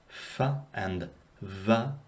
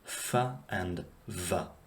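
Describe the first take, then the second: First: The f and v use both lips only. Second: The f and v use lips and teeth. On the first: The speaker calls it right. "bilabial fricatives, meaning that they are made with the lips alone" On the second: The speaker calls it wrong. "as opposed to"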